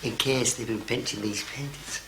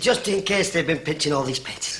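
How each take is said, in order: First: It is said quietly. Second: It is said loudly.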